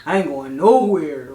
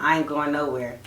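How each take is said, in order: First: Low, slow mock of the guy from Jersey; imitating his slow drawl. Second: Low, dragged mock of the guy; lightly voiced, lower and quieter; imitating his low mumble. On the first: Retelling how the guy from Jersey said it, low drawl. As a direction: drag it out lower, mocking him. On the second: Mocking how he brushed her off. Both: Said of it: "The way he said it".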